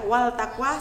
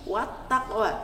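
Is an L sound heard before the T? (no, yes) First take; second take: yes; no. First: An L sound is heard before the T. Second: The L merges into a doubled T sound. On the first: The speaker calls it wrong. "wal takwa salah" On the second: The speaker calls it right. "tapi wat takwa"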